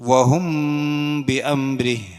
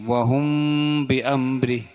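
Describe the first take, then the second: The two takes are said the same way.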